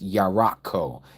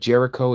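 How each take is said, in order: First: The name is pronounced the Hebrew way. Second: The name is pronounced the usual English way. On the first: "but it's Yarakko" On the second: "is how we pronounce it"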